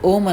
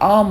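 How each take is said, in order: First: The word is said with a plain 'o' sound. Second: The word is said with a gliding 'a-u' sound. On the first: The speaker calls it wrong. "కానీ ఎవరు ఓం అనకండి" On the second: The speaker calls it right. "ఏయుఎం ఆమ్ అనాలండి"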